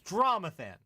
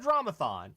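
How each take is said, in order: First: The last syllable sounds like 'than'. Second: The last syllable sounds like 'thon'. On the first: The speaker calls it right. "It's like Jonathan" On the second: The speaker calls it wrong. "It's not Dramathon"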